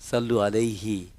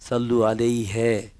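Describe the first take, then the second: First: The final syllable is a clear short 'hi'. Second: The final syllable sounds like nasal 'hyan'. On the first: The speaker calls it right. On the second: The speaker calls it wrong.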